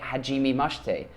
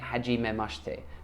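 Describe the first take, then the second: First: The syllable me has a long ee vowel. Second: The syllable me has a short e vowel. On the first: The speaker calls it wrong. "I was saying it hajime mashite" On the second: The speaker calls it right. "but now I'm saying it hajime mashite"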